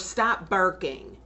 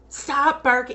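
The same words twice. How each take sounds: First: It is said at normal volume. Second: It is said louder.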